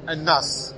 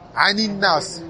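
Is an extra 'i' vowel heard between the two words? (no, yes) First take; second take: no; yes. First: No linking vowel joins the two words. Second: An 'i' vowel links the two words. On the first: This is the underlying base form. "à la base, c'est An" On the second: This is the actual connected pronunciation. "on a une kasra pour le Wasl, pour la liaison"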